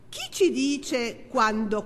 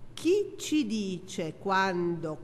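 First: It is spoken at a normal, faster pace. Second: It is spoken at a slower pace.

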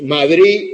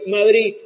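First: The final d is clearly pronounced. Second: The final d disappears completely.

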